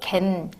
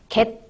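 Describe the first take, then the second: First: The syllable ends in a nasal n sound. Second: The syllable ends in a stopped t sound. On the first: The speaker calls it right. "이렇게 발음되는 걸" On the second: The speaker calls it wrong. "이렇게 발음되지 않고"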